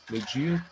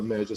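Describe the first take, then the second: First: "Medir" said as me-DI-a, stress on the i; stress moved to DI. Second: Said in the usual way. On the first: Shown as a demonstration. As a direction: hit DI in "Medir", as the accentless verb form. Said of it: "Como é que é a palavra média sem acento". ("Medir" com a tônica no DI, me-DI-a) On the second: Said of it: "palavra média sem acento".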